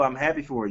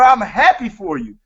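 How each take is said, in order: First: It is said flatly, without enthusiasm. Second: It is said warmly, with lively energy. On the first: The speaker does not really mean it. The speaker calls it wrong. "You're not happy for me" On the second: The speaker genuinely means it. The speaker calls it right. "It's a difference in how I said it"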